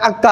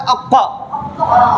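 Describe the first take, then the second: First: अक्का with a light front K, short; महीन आवाज. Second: अक्का thick and rounded, stretched out slowly; मोटी आवाज. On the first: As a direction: say अक्का thin and unrounded. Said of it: "आराम से पढ़ना है". (अक्का को महीन, बारीक) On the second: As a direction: draw out a full-mouthed heavy अक्का. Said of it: "पुर करके पढ़ना है". (अक्का को मोटा करके, खींचकर) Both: Shown as a demonstration.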